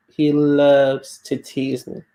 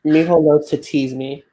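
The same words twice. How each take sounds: First: Slow, drawn-out LOVES; stress on LOVES. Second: Said in the usual way. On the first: Real, not acted. Telling friends about being teased, LOVES slowly stressed. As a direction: stretch out LOVES at half speed for emphasis. Repeats the line for emphasis.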